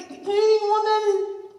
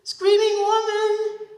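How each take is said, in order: First: High, slow, distant wail; high drawn-out eerie call. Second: High, slow, loud question; slow high puzzled repeat. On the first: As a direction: call it out like a ghost. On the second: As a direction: ask it back in disbelief. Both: Acted.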